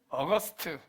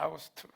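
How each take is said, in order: First: It is said with the English 'aw-gust' sound. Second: It is read letter by letter as 'ah-oo-gu-st'. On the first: "영어로 팔월을 뭐라고 이야기하냐면" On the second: "발음 나는 대로 읽으면"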